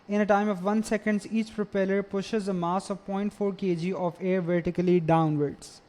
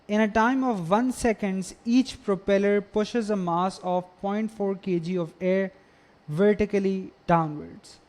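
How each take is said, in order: First: It is read at a normal pace. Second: It is read slowly.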